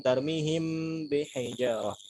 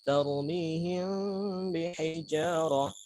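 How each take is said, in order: First: The m is fully closed and clearly pronounced. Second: The m is soft, nasal and partly concealed. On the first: The speaker calls it wrong. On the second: The speaker calls it right.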